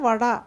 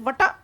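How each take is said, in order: First: The middle consonant is a voiced d sound. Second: The middle consonant is a voiceless t sound. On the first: This is how people actually speak it. The speaker calls it right. "you will always say vada" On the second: This follows the written spelling. The speaker calls it wrong. "you write it vata, but will you pronounce it vata?"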